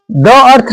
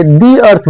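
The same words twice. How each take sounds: First: "द अर्थ" with "द" as a short "duh"; wrong take of "द अर्थ". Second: "the अर्थ" with "the" said as a long "dee"; right take of "the अर्थ". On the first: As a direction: show the wrong "द" before अर्थ. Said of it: "द अर्थ नहीं बोलेंगे". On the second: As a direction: model the right "the" before अर्थ. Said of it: "the अर्थ बोले". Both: Shown as a demonstration.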